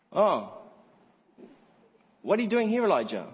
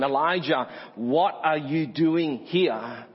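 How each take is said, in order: First: High-pitched feigned astonishment, falling on Elijah; mock surprise. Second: Weighty, drawn-out WHAT ARE YOU DOING HERE; slow, probing question. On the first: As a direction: act as if you had no idea he was here. Mocks God as not knowing. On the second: Acted. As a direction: ask it deliberately, each word stretched. Voices God's searching question to Elijah.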